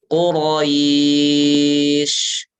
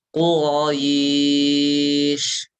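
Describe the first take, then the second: Both takes have the same delivery.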